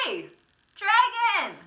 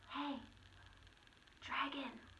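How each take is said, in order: First: It is shouted very loudly. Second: It is whispered very softly.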